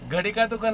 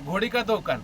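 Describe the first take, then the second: First: The first word has an 'uh' vowel. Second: The first word has an 'oh' vowel. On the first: This is the usual way of saying it. "घडी का दुकान नाही" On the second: This is how people in that region say it. "ते म्हणा घडी घोडी का दुकान"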